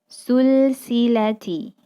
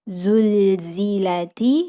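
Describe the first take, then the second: First: The z sounds are replaced by s sounds. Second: The word is said with z sounds. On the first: The speaker calls it wrong. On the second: The speaker calls it right.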